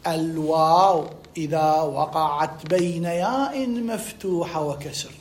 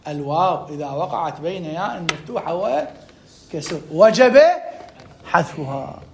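First: Very slow, measured rule recital; slow memorisation dictation. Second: Slow but more flowing recital; repeated rule. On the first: Teacher repeating a rule to be memorised, slow dictation. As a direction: draw each word out for memorising. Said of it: "احفظ لي، أكررها لك". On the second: Teacher repeating the rule for students, measured recital. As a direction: repeat it steadily, lifting before the last word. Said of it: "أكررها لك". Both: Shown as a demonstration.

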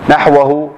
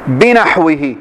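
First: نحوه said naħwahu with final -ahu; accusative reading. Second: بنحوه said binaħwihi with final -ihi; genitive reading. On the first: Teacher reading نحوه as object, naħwahu. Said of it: "مفعول به". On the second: Teacher reading بنحوه in the genitive as binaħwihi. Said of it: "مدخول للباء فيكون مجرورا". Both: Shown as a demonstration.

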